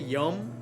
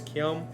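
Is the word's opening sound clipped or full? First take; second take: clipped; full. First: The word is clipped, its opening sound dropped. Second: The word is said in full, opening sound kept. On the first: This is casual everyday speech. "which is a very cut way" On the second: This is the proper form. "the proper way is kyom"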